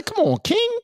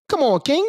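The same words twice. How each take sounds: First: Very high put-on voice; a lightly voiced coached witness; mock coached line. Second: Said in the usual way. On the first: Shown as a demonstration. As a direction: say it the way he should. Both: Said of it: "You gotta say".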